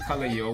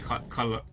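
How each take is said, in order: First: The ending is pronounced like 'your'. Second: The ending is pronounced as a plain 'er'. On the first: The speaker calls it wrong. "we don't say color your" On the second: The speaker calls it right. "We just say color"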